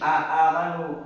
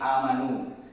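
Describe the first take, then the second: First: Two separate glottal onsets are heard at the start. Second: The two onsets merge into one long vowel. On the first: "ada hamzah dua" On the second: "disatukan hamzahnya menjadi amanu"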